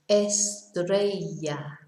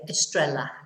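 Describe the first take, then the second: First: The double L sounds like an English Y. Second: The double L sounds like an English L. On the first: The speaker calls it right. "it's a Y sound" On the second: The speaker calls it wrong. "as long as you don't say estrella"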